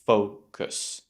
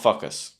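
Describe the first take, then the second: First: The first vowel is a rounded 'oh' sound. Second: The first vowel is an open 'ah' sound. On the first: The speaker calls it right. "You want to say fo, o, right? Keep your mouth rounded" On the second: The speaker calls it wrong. "Not focus. No, never"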